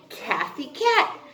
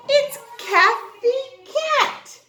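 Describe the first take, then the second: First: Said in the usual way. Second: Slow, high and loud big reveal; grand reveal. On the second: Shown as a demonstration. Teacher introducing Kathy Cat to the class, slow, high and loud. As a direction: unveil it like a surprise present. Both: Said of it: "I have a friend for you to meet".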